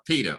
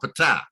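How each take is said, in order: First: The name sounds like the English word Peter. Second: The name is said with a p-t cluster, 'p-tah'. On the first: The speaker calls it right. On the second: The speaker calls it wrong.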